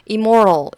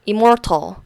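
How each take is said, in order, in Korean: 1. 미국식 억양에 t 소리가 약하게 부드러워진 발음입니다. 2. 영국식 억양에 t 소리가 분명하게 들리는 발음입니다. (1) "immoral 이렇게 하면은 좀 미국식 발음이고" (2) "immortal 이렇게 하면은 영국식 발음"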